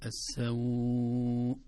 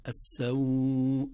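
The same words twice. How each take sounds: First: السوء held longest, very slow; long lengthening. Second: السوء held longer, slow and louder; السوء moderately drawn out; medium lengthening. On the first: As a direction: draw out السوء fully. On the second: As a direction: stretch السوء a little more. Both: Shown as a demonstration. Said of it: "هكذا يسمى مد اللين".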